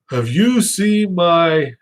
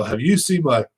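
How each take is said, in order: First: Higher, slow put-on voice asking the wife; drawn-out, higher mock question; retold question. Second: Said in the usual way. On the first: To his wife, slow higher put-on voice. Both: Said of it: "and I go".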